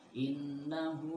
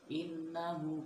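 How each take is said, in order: First: The final 'hu' vowel is held long. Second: The final 'hu' vowel is held short. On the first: The speaker calls it right. "Maka hu di sini harus dibaca panjang" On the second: The speaker calls it wrong. "dibaca hu-nya enggak dibaca pendek, bukan innahu ka"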